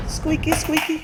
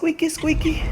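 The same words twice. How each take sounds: First: High, slow squeaky chant; squeaky sing-song. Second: High, breathy whispered squeak; squeaky whisper. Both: Pretend. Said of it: "playful sound-play on the word".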